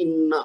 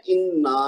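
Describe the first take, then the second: First: انا with a short final a; single short vowel. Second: انا with a long, held final aa; double-length vowel. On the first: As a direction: end انا quickly after the doubled n. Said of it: "ایک حرکت ہم نے اس کو پڑھنا ہے". (انا کے آخر میں ایک حرکت) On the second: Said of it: "اس کو ہم نے ڈبل پڑھنا ہے". (انا کا آخری الف لمبا) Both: Shown as a demonstration.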